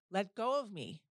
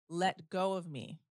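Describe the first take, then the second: First: The voice is a loud, forceful scream. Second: The voice is firm and clearly louder. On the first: "So I screamed as loud as I possibly could" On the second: "but I said it louder"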